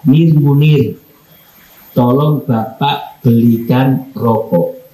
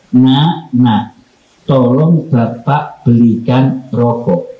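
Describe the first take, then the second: First: Curt call by name. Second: Tender call to son. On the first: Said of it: "Langsung manggilnya itu nama saya". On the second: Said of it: "tapi cara manggilnya beda". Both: Shown as a demonstration.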